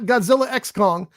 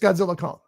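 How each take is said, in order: First: The letter X is spoken between the names. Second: The letter X is left out between the names. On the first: The speaker calls it wrong. "So it's not Godzilla X Kong" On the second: The speaker calls it right. "It's just Godzilla Kong"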